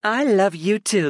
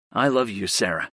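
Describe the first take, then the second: First: Higher, slower woman's voice; female character voice. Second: Said in the usual way. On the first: Acted. Sarah answers Griff.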